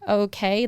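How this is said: The voice rises at the end like a question. It is a question.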